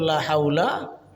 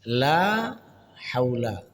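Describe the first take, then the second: First: The vowel in la is kept short. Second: The vowel in la is held long. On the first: Surely there is power. The speaker calls it wrong. "pendek la-nya itu sungguh daya artinya" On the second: There is no power. The speaker calls it right. "tidak ada daya"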